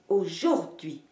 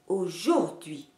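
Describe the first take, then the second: First: The middle syllable is stressed. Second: The same.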